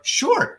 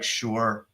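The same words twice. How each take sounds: First: It sounds willing and friendly. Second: It sounds reluctant and dismissive.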